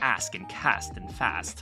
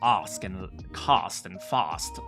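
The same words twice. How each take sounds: First: The words use a non-received pronunciation vowel. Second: The words use the received pronunciation vowel. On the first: Some people still say it this way. "there might be some people who still say" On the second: This is the standard form. "the standard um, received pronunciation uses"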